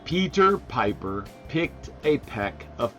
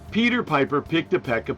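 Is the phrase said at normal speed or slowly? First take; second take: slowly; normal. First: It is said slowly and clearly. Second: It is said at a normal speed.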